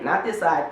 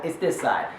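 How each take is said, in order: First: "this" leaned on, pointing one way; stress on this. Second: "this" stressed but softer, settling it. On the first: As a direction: punch "this" like pointing to a side. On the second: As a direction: land "this" quietly, settling the point. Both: Shown as a demonstration.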